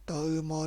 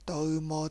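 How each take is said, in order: No difference in how they are said.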